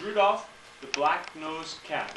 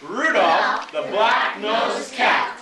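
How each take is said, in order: First: "Rudolph the black-nosed cat" said slowly, word by word; slow magic words. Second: "Rudolph the black-nosed cat" chanted very slowly and loudly with the class. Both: Shown as a demonstration. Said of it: "say the magic words".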